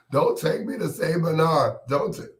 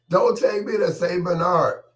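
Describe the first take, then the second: First: High-pitched mock holler; hollering and screaming. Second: Very high, loud mock scream; louder hollering and screaming. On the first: Patient pleads as they take him away, mock screaming. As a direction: holler in protest, pitched well up. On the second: Patient repeats plea to deaf listeners, loud high hollering. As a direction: scream it out for someone who can't hear. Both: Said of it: "I'll be hollering and screaming".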